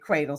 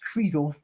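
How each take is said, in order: First: The name gets a plain, ordinary pronunciation. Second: The name gets a fancy, refined pronunciation. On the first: It is how the family actually says it. "my husband's family pronounces it" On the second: It is the dressed-up version used with strangers. "sometimes when we get fancy"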